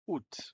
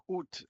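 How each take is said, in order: First: "août" said as one sound, "ou"; model pronunciation. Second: "Août" said as a single "ou", the A silent; model pronunciation. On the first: Teacher modelling "août" for Spanish learners, said as "ou". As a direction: say "août" like "ou", dropping the A. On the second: Teacher repeating "Août" as "ou" for learners. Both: Shown as a demonstration. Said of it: "août es uno de los meses difíciles de pronunciar".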